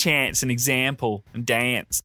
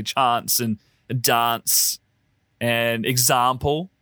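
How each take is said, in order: First: CHANCE, EXAMPLE, DANCE with the 'a' of cat; local short-a pronunciation. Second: CHANCE, DANCE, EXAMPLE with long 'ah'; Queen's English vowels. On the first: Explaining how it's said over here, short-a "chance", "example", "dance". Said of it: "over here, it's". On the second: Explaining South Australian speech, broad-a "chance", "dance", "example". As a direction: say "chance", "dance", "example" slowly as chahnce, dahnce, exahmple. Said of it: "it's the Queen's English". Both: Shown as a demonstration.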